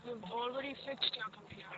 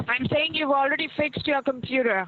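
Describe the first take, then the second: First: You've already fixed your computer said very softly, barely audible; quiet. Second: Saying spoken up and clearly for someone who can't hear; to someone hard of hearing. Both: Real, not acted. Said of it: "Talk up, I can't hear you".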